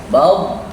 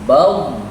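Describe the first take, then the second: No difference in how they are said.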